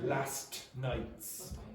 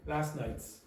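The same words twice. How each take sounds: First: The T at the end of 'last' is pronounced. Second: The T at the end of 'last' is dropped. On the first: The speaker calls it wrong. "you don't say last nights. Nobody says that" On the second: The speaker calls it right. "They say last nights"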